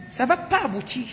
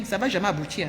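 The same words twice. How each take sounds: First: Pas and aboutir said higher and pressed; insisting the scheme will fail; emphatic repeat. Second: Said in the usual way. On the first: Retold or imitated. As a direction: repeat the warning with more weight on pas.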